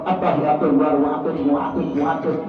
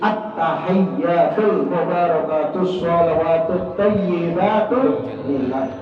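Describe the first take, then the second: First: The words are rushed and slurred together quickly. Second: The words are recited slowly and clearly. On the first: The speaker calls it wrong. "Kalau orang bacanya cepat" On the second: The speaker calls it right. "Gak usah cepet-cepet bacanya"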